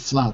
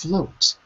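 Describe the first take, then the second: First: The vowel is not a long O sound. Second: The vowel is a long O sound. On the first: The speaker calls it wrong. "you see you're always saying flout. Oh no, no, it's not flout" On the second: The speaker calls it right. "it's float"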